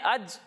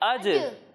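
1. آخری ج سپاٹ رک جاتا ہے، کوئی گونج نہیں۔ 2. آخری ج واضح گونج کے ساتھ لوٹتا ہے۔ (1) "یہاں پر ہم نے اج نہیں پڑھنا" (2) "بلکہ اج، ... آواز لوٹتی ہوئی محسوس ہوتی ہے"

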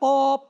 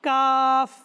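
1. শব্দটি p ধ্বনি দিয়ে শেষ হয়। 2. শব্দটি f ধ্বনি দিয়ে শেষ হয়। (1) "এটা কাফ না কিংবা অপ না" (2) "এটা হচ্ছে কাফ। লাস্টে ফা রয়েছে"

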